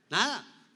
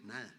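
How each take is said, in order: First: Emphatic answer. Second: Quiet answer. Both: Shown as a demonstration.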